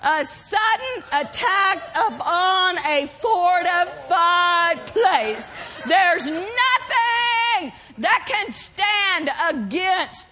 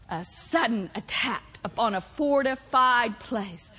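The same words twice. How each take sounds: First: Slow, stretched-out proclamation; emphatic preaching. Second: Low, soft, weighty repetition; hushed emphasis. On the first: Preacher declaring assault on strongholds, slow emphatic preaching. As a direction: hammer out each word as a battle cry. Climactic repeat of definition. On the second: Preacher repeating what assault means, low hushed emphasis. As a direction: lower the voice and let the definition sink in. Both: Real, not acted.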